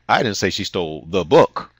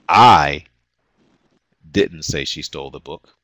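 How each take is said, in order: First: The word "book" is stressed. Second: The word "I" is stressed.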